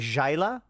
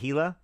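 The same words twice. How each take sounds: First: The word begins with a J sound. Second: The word begins without a J sound. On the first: The speaker calls it right. "Pronounced as in Jife" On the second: The speaker calls it wrong. "Did I say Gila?"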